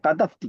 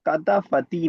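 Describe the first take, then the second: First: The f runs straight into the t. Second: A vowel is sounded between the f and t. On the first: The speaker calls it right. "ये वाला साकिन है तीसरा" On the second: The speaker calls it wrong. "कतफती नहीं"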